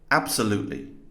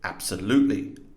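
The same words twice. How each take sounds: First: The stress falls on the usual syllable. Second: The stress falls on an unusual syllable. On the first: The speaker calls it right. "correctly stressed here" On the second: The speaker calls it wrong. "incorrectly over here"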